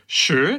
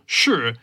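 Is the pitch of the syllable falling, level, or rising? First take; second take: level; falling. First: The pitch stays level through the syllable. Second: The pitch falls through the syllable. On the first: "sure is neutral" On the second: "Sure is the downward"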